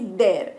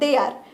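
First: It is said as one short syllable. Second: It is said as two separate syllables. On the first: "शॉर्टकटमध्ये आपण म्हणतो की देअर" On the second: "ते actually आहे दे आर"

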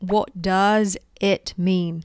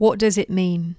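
First: It is said at a slower, careful pace. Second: It is said quickly, at a fast pace.

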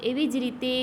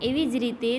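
The two takes are said the same way.

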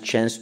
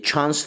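First: It is said with an American accent. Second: It is said with a British accent. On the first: "Amerikan İngilizcesini sevdiğim için chance chance diyorum" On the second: "British English e, doğru diyor"

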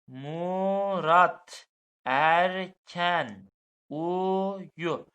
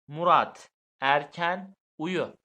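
First: The sentence is read slowly, word by word. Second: The sentence is read quickly.

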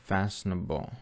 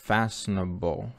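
Both takes have the same delivery.

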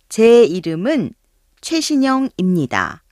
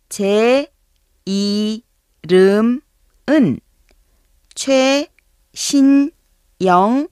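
First: The sentence is said at a normal pace. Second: The sentence is said slowly and carefully.

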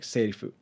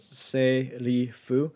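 First: The syllables run together in one smooth word. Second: The syllables are said separately with breaks. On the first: "when you put it together" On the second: "break down the pronunciation of this"

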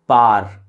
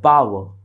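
First: The w sound in the middle is dropped. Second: The w sound in the middle is pronounced. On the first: The speaker calls it wrong. "तो लोग कह देते हैं पार" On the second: The speaker calls it right. "एक word है पावर"

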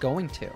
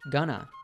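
First: The phrase is said in full as 'going to'. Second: The phrase is reduced to 'gonna'. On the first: "This is a reduced version of going to" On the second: "We have a common reduction here"

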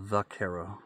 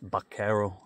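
First: The word begins with a V sound. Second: The word begins with a B sound. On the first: This is the anglicized pronunciation. "when you anglicize it is what I learned, it's a V" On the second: This is the true Spanish pronunciation. "in like true Spanish, it's vaquero, like a B, not a V"

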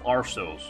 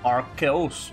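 First: The c is pronounced with an s sound. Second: The c is pronounced with a k sound. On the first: The speaker calls it wrong. "instead of" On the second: The speaker calls it right. "I will use the letter C as a K"

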